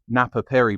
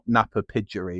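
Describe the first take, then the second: First: The second part sounds like 'piri'. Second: The second part sounds like 'pidgery'. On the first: The speaker calls it right. "how I'm pronouncing it is correct" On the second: The speaker calls it wrong. "not Napa Pidgery and all that jazz"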